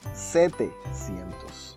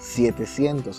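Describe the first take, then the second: First: The first syllable has a plain 'e' vowel. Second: The first syllable has the 'ie' vowel sound. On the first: The speaker calls it right. "You say setecientos" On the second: The speaker calls it wrong. "you don't say it like that"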